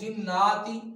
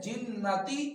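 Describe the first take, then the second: First: The vowel after the double n is long. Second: The vowel after the double n is short. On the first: The speaker calls it wrong. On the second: The speaker calls it right.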